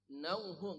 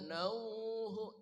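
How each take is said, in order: First: The vowel is kept short, under two beats. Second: The vowel is held long, for two beats. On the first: The speaker calls it right. "kurang dari dua harokat" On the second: The speaker calls it wrong. "enggak boleh nauhu, itu dua harokat"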